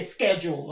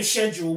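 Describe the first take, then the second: First: It begins with an 'sk' sound. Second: It begins with an 'sh' sound. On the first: This is the American way of saying it. The speaker calls it right. "With a C. It sounds better" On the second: This is the British way of saying it. The speaker calls it wrong. "we don't say schedule"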